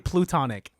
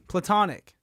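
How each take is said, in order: First: The first vowel sounds like 'oo'. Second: The first vowel sounds like 'ah'. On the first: The speaker calls it wrong. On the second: The speaker calls it right.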